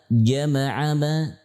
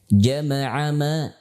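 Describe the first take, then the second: The two takes are said the same way.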